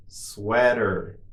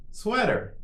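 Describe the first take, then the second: First: Drawn-out word for learners; slow model. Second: Much higher, shorter take; quicker model. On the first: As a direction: say it slowly and evenly for repetition. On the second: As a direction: say it quickly on a raised pitch. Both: Shown as a demonstration. Teacher models word for repetition.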